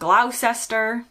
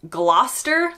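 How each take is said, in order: First: It is said the way foreigners often say it. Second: It is said the local British way. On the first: The speaker calls it wrong. "not Gloucester" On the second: The speaker calls it right. "It's Gloucester, like Gloucester Road"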